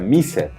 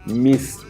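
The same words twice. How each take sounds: First: The ending is pronounced as a separate 'ed' syllable. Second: The ending is pronounced as a short 't' sound. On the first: The speaker calls it wrong. "no se pronuncia missed" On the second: The speaker calls it right. "como lo dice la regla, como una T"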